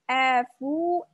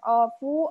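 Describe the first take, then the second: First: The vowel sounds thin with spread lips. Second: The vowel sounds thick and rounded. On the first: The speaker calls it right. "diucapkan dengan tipis" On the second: The speaker calls it wrong. "Bukan ofu"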